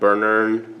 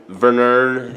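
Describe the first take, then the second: First: The name begins with a B sound. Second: The name begins with a V sound. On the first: The speaker calls it wrong. "and not Bernern" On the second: The speaker calls it right. "it's a Vernern"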